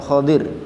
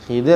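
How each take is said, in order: First: The first vowel sounds like 'o'. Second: The first vowel sounds like 'i'. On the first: "tapi Khodir" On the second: "bukan Khidir"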